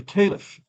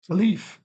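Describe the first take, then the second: First: Caliph as KAY-lif; caliph, stress on the first syllable: KAY-liff; alternative pronunciation. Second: Caliph as kuh-LEEF; caliph, stress on the second syllable: ka-LEEF; alternative pronunciation. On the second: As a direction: say caliph with a long EE, stressed at the end. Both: Shown as a demonstration. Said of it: "caliph or caliph".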